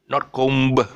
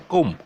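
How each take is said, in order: First: A b sound is heard after the m. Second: No b sound is heard after the m. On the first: The speaker calls it wrong. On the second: The speaker calls it right. "C O M, that's all"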